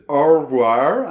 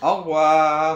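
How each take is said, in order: First: The R is said like an American R. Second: The R is said as a French R. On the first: The speaker calls it wrong. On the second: The speaker calls it right.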